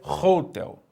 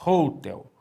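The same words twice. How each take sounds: No difference in how they are said.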